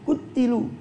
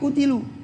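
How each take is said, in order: First: The t sound is doubled and held longer. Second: The t sound is single and short. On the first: They were cut to pieces in battle. "membaca qutilu bitasydid dengan tasydid" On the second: They were killed. "membaca dengan ringan tanpa tasydid"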